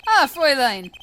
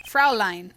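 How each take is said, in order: First: Fräulein said loudly with the wrong vowels; mispronounced Fräulein. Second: Said in the usual way. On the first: Shown as a demonstration. Suitor greeting a young lady, Fräulein mispronounced. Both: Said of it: "pronounced that completely wrong".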